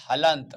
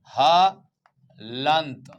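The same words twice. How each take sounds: First: Said in the usual way. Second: "हलंत" drawn right out in two parts; slow syllable-by-syllable. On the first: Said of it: "क्या कहा जाता है?". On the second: Shown as a demonstration. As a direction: stretch "हलंत" very slowly, splitting ह from लंत. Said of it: "ध्यान रखना". ("हलंत" को तोड़कर, बहुत धीरे बोलें)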